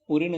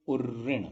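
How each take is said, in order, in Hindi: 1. u सीधे बिना r के ri से जुड़ जाता है। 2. ri से पहले एक r ध्वनि आती है। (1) "उऋण नहीं होता" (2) "उर्ऋण होता है"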